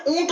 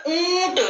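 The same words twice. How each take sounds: First: ऊंट pronounced ऊट, higher, with an oral ऊ; no nasal sound. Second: ऊंट high, with a long humming nasal ऊ; nasalised vowel. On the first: Teacher rejects wrong pronunciation for children, without nasality. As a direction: drop the nose sound from ऊंट, saying ऊट. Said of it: "ऊंट उच्चारण नहीं होता". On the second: Teacher gives children the correct pronunciation, nasalised vowel. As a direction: stretch the ऊ of ऊंट through the nose. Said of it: "ऊंट में भी नाक से स्वर निकल रहा है". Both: Shown as a demonstration.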